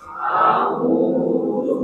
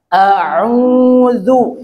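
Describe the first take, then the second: First: A'udzu breathed without voice; whispered. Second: A'udzu drawn out with a rising end; model reading. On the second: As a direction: read A'udzu clearly for the class to copy. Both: Shown as a demonstration. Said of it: "Coba dibaca".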